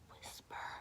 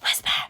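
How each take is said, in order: First: The word is whispered softly and quietly. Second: The word is whispered forcefully and loudly. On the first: The speaker calls it right. "actually whisper. Like that" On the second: The speaker calls it wrong. "the angry whisper"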